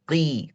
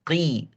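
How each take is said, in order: First: The q is said light, with a thin vowel. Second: The q is said light, with a thin vowel.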